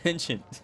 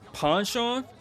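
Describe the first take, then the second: First: The word is said with an English pronunciation. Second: The word is said with a French-style pronunciation. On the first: This is how the speaker usually says it. "But I always pronounce it as penchant" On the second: This is how the game character said it. "Is that how you pronounce that?"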